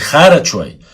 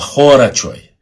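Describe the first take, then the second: First: The first vowel is an 'a' sound. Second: The first vowel is an 'o' sound. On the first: The speaker calls it wrong. "Не харачой" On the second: The speaker calls it right. "Через О. О после Х. Правильно говорить так"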